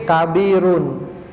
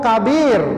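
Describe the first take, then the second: First: The word ends with a full vowel ending. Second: The word ends in a bare consonant. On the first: The speaker calls it right. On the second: The speaker calls it wrong.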